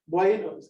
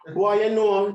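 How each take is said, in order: First: It is said in the speaker's plain accent. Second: It is said in a Jamaican accent.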